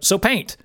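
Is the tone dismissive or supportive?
dismissive. It sounds curt and dismissive.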